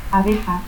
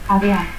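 First: Said in the usual way. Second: Abea, the J of abeja breathed away; aspirated J. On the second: Shown as a demonstration. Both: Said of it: "el fonema X se aspira".

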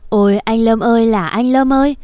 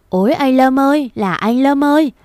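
First: Keen the name "Lâm" at the coffin; aunt wailing at the coffin; wailing lament. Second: Aunt's final wail at the coffin; high wailing cry. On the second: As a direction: pitch the cry for "anh Lâm ơi" up high. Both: Acted. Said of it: "là khóc".

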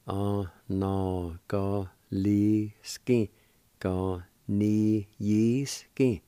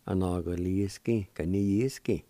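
First: Anagaliski, ganiyiski stretched out very slowly, each syllable drawn long and distinct; slow careful pronunciation. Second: Said in the usual way. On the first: Shown as a demonstration. Teacher modelling the Cherokee word for students, slow and careful. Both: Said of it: "And together".

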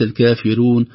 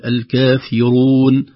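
First: الكافرون with a thick ra; wrong reading. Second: الكافرون with a thin ra, slow; correct reading. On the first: Sheikh showing the mistake. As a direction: say الكافرون with the ra made heavy. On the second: Sheikh showing the correct ra. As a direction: say الكافرون with the ra kept light. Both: Shown as a demonstration. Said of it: "وليس".

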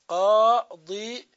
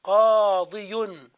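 First: قاضي drawn out very slowly with a rising end; slow demonstration. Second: قاضي drawn out very slowly, ending in a full qaadiyun; slow demonstration. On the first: Teacher repeating the old form قاضي for students. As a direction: linger on each sound of قاضي. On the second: Teacher slowly spelling out the abandoned form قاضي. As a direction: stretch every sound of قاضي. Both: Shown as a demonstration. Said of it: "هذا الأصل المهجور".

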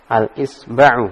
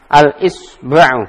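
First: Said in the usual way. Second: Al-Isba'u stretched slowly and louder, each syllable clear; teacher's slow clear model of Al-Isba'u; slow model reading. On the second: Shown as a demonstration. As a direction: read Al-Isba'u slowly for the students to copy. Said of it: "teacher models the word".

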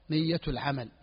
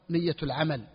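Both takes have the same delivery.

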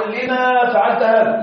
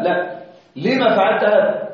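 First: لما فعلت هذا said slowly as the wrong form, with a drawn-out sing-song; teacher models the mistaken لما فعلت هذا, slow and singing; wrong reading. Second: لما said short with no alif, a calm corrective tone; teacher gives the right لما فعلت هذا, measured and plain; correct reading. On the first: Teacher shows students the wrong form, slow and chanted. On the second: Teacher corrects the students, calm and deliberate. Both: Shown as a demonstration. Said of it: "لا أقول".

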